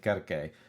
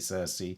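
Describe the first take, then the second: First: The name begins with a hard k sound. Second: The name begins with a soft s sound. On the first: This is probably how the ancient Greeks said it. "the Greeks probably said Kerke" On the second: This is the usual English way of saying it. "we say Circe"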